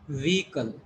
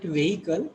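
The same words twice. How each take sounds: First: Vehicle with long E, VEE-kul; corrected vehicle in two syllables, "vee-kal"; correct pronunciation. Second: Vehicle as VAY-i-kul, short of a long E; the mistaken vehicle, "veh-ikal", rising at the end; wrong pronunciation. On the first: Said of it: "This is long E". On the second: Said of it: "You should not call it vehicle". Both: Shown as a demonstration.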